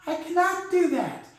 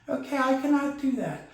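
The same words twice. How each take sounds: First: Genie voice. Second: Said in the usual way. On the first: Acted.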